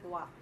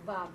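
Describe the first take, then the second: First: The word begins with a W sound. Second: The word begins with a V sound. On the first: "not Wa" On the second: "we will pronounce it as Va"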